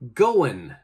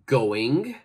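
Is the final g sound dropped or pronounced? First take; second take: dropped; pronounced. First: The final g sound is left off. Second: The final g sound is clearly pronounced. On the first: The speaker calls it right. "we say" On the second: The speaker calls it wrong. "We don't say"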